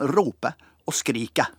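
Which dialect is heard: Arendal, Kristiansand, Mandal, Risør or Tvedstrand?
Risør. The endings have a very strong æ vowel. "Der er det ekstremt æ-mål"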